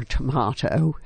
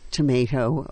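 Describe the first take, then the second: First: "tomato" said tuh-MAH-toe; "tomato" with a broad AH in the middle. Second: "tomato" said tuh-MAY-toe; "tomato" with a long AY in the middle. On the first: Quoting a play's speech, tomato as tuh-MAH-toe. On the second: Quoting a play's speech, tomato as tuh-MAY-toe. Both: Retold or imitated. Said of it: "as she said".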